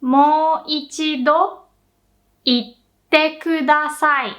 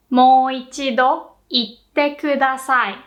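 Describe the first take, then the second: First: Very slow Mo ichido, a pause, then itte kudasai; slow model phrase. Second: Mo ichido itte kudasai in one flowing line; now say Mo ichido itte kudasai as one phrase; natural-pace repeat. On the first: Teacher breaking the phrase into two slow halves for learners. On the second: Teacher repeating the whole phrase more fluently. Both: Shown as a demonstration. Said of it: "you'd say".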